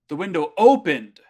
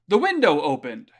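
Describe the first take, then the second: First: The word opened is stressed. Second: The word window is stressed. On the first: The window opened, contrasting with something that did not. "it would be putting the emphasis on akimashita" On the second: It is the window, not something else, that opened. "putting emphasis on the idea that we're, we're focusing on the mado"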